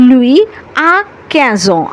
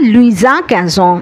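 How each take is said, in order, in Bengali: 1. শব্দ দুটি আলাদা থাকে, কোনো যুক্তকারী ব্যঞ্জনধ্বনি থাকে না। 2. একটি ব্যঞ্জনধ্বনি শব্দ দুটিকে একসঙ্গে যুক্ত করে।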